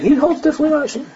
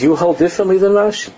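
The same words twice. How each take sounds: First: High, fast disbelieving quote; high mocking disbelief; incredulous repetition. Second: High, incredulous mimic of the rabbi; raised, astonished imitation; imitating a high voice. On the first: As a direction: rattle it off in high amazement. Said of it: "the whole day he's saying". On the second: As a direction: echo the rabbi's high-pitched disbelief. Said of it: "this is the way he had a very high voice".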